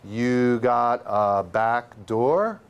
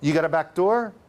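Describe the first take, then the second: First: The phrase is said about thirty percent slower. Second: The phrase is said at normal speed.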